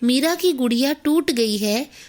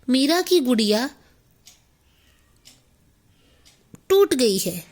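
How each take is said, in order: First: The words flow together without pauses. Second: Long pauses break up the words. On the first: The listener understands the sentence easily. The speaker calls it right. "अगर मैं इसको ऐसे बोलूं" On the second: The sentence loses its meaning. The speaker calls it wrong. "तो ये वाक्य अपना अर्थ खो देगा"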